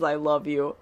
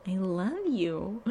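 First: Said in the usual way. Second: Slow, soft, lightly voiced "I love you"; slow soft mock of Willow's "I love you"; failed imitation. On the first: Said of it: "I hate the way she says". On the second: Shown as a demonstration. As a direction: try Willow's cloying "I love you" and miss. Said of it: "I can't even imitate it. That wasn't right".

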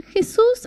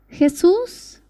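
First: Retold tearful prayer. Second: Retold first prayer. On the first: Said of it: "empezó a llorar, llorar y decía". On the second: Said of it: "cerró los ojos y dijo".

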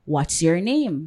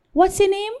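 First: "what's your name" slow and deliberate, falling at the end; pointed question. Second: Light, high-pitched asking; simple question. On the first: Client insisting after a rebuff, "what's your name" slow and pointed. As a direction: spell out "what's your name" slowly, dropping on "name". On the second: Client asking the salon boss a simple question, high and casual. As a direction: ask it casually, pitched well up. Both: Retold or imitated.

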